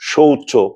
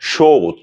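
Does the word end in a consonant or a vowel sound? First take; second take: vowel; consonant. First: The word ends with an added final o vowel. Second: The word ends on a consonant, no final vowel. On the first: The speaker calls it wrong. "এমন হবে না" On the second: The speaker calls it right. "এগুলো কিন্তু ব্যতিক্রম"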